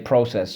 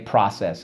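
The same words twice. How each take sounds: First: It uses the Canadian, English or Australian pronunciation. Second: It uses a different, non-British regional pronunciation. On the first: "like if you're from Canada or England or Australia, they'll say process" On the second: "Some people say process"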